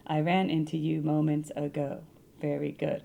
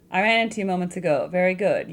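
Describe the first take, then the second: First: Slow, softer, read as a poem; slow haiku reading. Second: Said in the usual way. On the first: Shown as a demonstration. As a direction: savour it like a haiku. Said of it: "Are these haikus?". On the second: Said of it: "Is this a haiku?".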